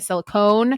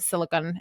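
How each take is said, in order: First: The last syllable sounds like 'cone'. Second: The last syllable sounds like 'con'. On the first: The speaker calls it wrong. "I was saying it silicone" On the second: The speaker calls it right. "you have to say it silicon"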